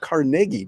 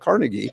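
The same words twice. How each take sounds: First: The name is pronounced the Scottish way. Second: The name is pronounced the common non-Scottish way. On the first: The speaker calls it right. "that's the way the Scottish say it" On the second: The speaker calls it wrong. "not Carnegie like Dale Carnegie"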